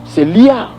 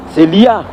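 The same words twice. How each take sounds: The two takes are said the same way.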